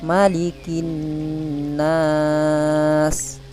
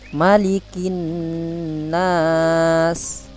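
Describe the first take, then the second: First: The long vowel is held for four beats. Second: The long vowel is held for two beats. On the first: "yang kedua empat harokat" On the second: "Yang pertama baca, Bapak baca dua harokat"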